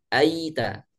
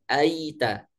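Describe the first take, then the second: No difference in how they are said.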